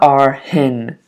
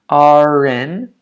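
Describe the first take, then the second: First: An h sound is added before 'in'. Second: The r runs straight into 'in'. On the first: The speaker calls it wrong. "not R hin. Don't add an H" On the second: The speaker calls it right. "you have to link that R"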